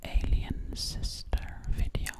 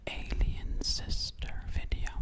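Both takes have the same delivery.

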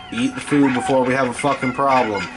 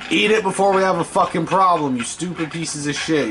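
First: Said in the usual way. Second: Angry repeat. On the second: Real, not acted. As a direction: push the threat harder the second time. Repeats threat at slimes.

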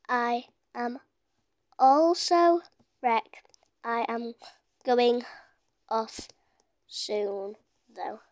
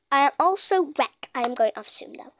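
First: Halting, word by word, low and soft; typing aloud. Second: Said in the usual way. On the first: Real, not acted. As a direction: leave a gap after each word while typing. Sounding out words while typing.

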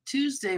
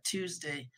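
First: Pin down the day with a punch on Tuesday; emphatic Tuesday. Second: Said in the usual way. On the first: Real, not acted. Insisting to viewers it was Tuesday, Tuesday stressed high. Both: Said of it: "correcting which day".

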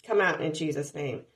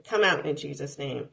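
The two takes are said the same way.

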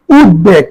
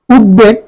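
The two takes are said the same way.

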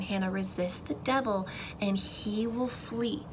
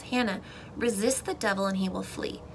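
First: Slowed, quiet, deliberate repeat; slow, soft insistence. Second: Said in the usual way. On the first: Retold or imitated. Mom ministering to her daughter, slow soft insistence. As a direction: press it home slowly and softly. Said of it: "she says it again". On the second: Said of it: "she tells me something".

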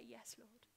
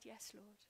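First: Gentle yes. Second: Gently said. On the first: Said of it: "he just wants us to say". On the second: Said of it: "I just gently said". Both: Retold or imitated.

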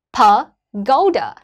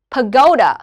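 First: "pagoda" very slowly, pause after pa, then a long falling GO-da; stress on GO, broken up. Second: "Pagoda" in one piece, GO punched, -da falling; stress on GO. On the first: Teacher breaks the word up for students, slow pa... GO-da in "pagoda". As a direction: split "pagoda" as pa... GO-da. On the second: Teacher says the whole word after splitting it, GO stressed in "Pagoda". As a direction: run "Pagoda" together with a strong GO. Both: Shown as a demonstration. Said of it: "âm thứ hai là âm go".

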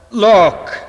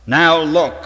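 First: High, loud shout on "look!". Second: Commanding. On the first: Hyde yelling at Lanyon to witness the change. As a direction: bellow "look!" as the change begins. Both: Acted. Hyde shows his transformation.

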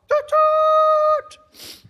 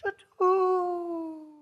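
First: Very high, blaring imitated horn; short toot, then a loud held one; excited train whistle. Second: Long, fading imitated whistle; train whistle in the wind. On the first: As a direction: whoop it out like a train blast. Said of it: "We're so excited". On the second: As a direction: let the high toot drift away on the wind. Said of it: "you hear it in the wind".

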